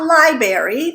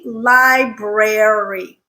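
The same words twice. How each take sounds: First: The R after the B is left out. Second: The R after the B is clearly sounded. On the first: The speaker calls it wrong. "Not library" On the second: The speaker calls it right. "there is an R in there"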